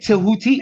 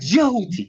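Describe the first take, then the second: First: The name begins with a T sound. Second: The name begins with a J sound. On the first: The speaker calls it wrong. "don't say Tahuti only, because that's what they teach you to say" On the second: The speaker calls it right. "it's D J Houthi, like Jehuti"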